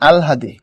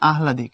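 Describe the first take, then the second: First: The h sound comes after the l sound. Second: The h sound comes before the l sound. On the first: The speaker calls it right. "শুদ্ধ যে উচ্চারণ সেটা হচ্ছে আলহাদি" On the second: The speaker calls it wrong. "আমরা পড়ার সময় পড়ি আহলাদি, কিন্তু কথাটা ভুল"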